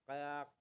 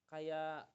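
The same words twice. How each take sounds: Both takes have the same delivery.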